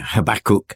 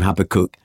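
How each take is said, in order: First: The name is said closer to Hebrew pronunciation. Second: The name is said the common Western way. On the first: "The Hebrew is probably nearer Habakkuk" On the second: "it's so common in the West to call him Habakkuk"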